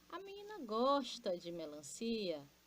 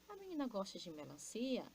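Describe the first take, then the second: First: It is said as an exclamation. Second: It is said as a question.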